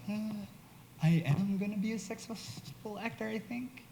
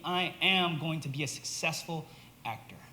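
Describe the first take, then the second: First: It sounds unsure and hesitant. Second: It sounds confident and fully owned.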